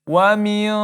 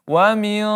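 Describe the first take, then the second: No difference in how they are said.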